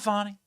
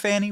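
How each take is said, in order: First: The name is pronounced in a French-sounding way. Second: The name is pronounced in a plain English way. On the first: The speaker calls it wrong. "It is not Fani. It is not French" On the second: The speaker calls it right. "It's Big Fannie Willis"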